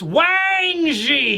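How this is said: The emphasis is on Wang. The speaker calls it right. "You got to add emphasis on the Wang"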